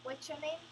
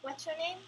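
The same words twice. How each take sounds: First: The words are linked in one smooth flow. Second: The same.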